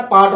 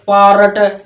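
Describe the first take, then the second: First: पार्ट with a silent r and a long aa; British pronunciation. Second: पारट with the r sounded and an extra vowel before ट, a bit louder; Haryanvi pronunciation. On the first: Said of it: "आर silent हो जाता है". (British उच्चारण में पार्ट, र silent) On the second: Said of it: "हम ठेठ हरियाणवी की तरह बोलते हैं". (ठेठ हरियाणवी लहजे में पारट, र पूरा बोलें) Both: Shown as a demonstration.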